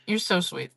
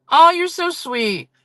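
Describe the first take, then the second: First: Said in the usual way. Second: Much higher, slow, drawn-out gush on Oh; gushing thanks. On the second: Real, not acted. Streamer gushing over a sweet chat message, high slow gush.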